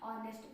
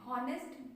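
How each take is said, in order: First: The word starts with a vowel sound. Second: The word starts with an h sound. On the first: The speaker calls it right. "ऑनेस्ट पढ़ेंगे आप" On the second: The speaker calls it wrong. "हॉनेस्ट बहुत गलत है"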